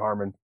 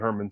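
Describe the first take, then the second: First: The first syllable sounds like 'har'. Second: The first syllable sounds like 'her'. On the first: This is how some other people say the name. "some people say Harmon" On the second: This is how the speaker says the name. "I say Herman"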